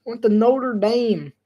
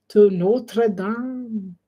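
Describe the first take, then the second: First: Deliberately slow read; slowed-down mock commentary. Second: Extremely slow, whispered mock of slow talkers; exaggerated slow-motion whisper. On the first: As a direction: drag the words like a slow caster. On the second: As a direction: draw out To Notre Dame in a hushed crawl. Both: Shown as a demonstration. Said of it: "they're speaking at regular speed".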